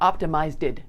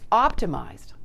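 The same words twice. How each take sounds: First: The ending is not a blended d sound. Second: The ending is a d sound blended with z. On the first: The speaker calls it wrong. "not optimized" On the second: The speaker calls it right. "It's optimized, not optimized. Emphasize that ed sound so it's pronounced as a d"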